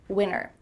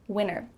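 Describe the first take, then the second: First: The middle T is dropped. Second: The same.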